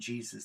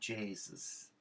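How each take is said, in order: First: The word is said in a plain, standard way. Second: The word is said in an Irish way. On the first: "instead of saying Jesus" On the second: "in Ireland, they say, ah, Jesus"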